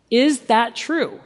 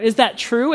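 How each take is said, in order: First: Slow, loaded accusing question; drawn-out suspicious "Is that true?". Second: Light, open, humble ask; sincerely want the answer; plain curious "Is that true?"; humble question. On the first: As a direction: ask it like you've already decided. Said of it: "Not in the tone". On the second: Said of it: "you gotta be humble when you do it". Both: Shown as a demonstration.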